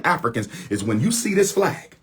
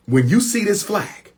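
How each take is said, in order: First: Said in the usual way. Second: Raised, pressing appeal; emphatic call. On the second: Real, not acted. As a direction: lift it up like a rally cry. Calling Afro-Latinos to solidarity.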